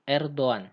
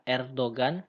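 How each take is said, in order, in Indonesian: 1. G-nya dilunakkan, bukan g keras. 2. G-nya diucapkan sebagai g keras. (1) "kita tidak baca seperti G biasa" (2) "Ini bukan Erdogan"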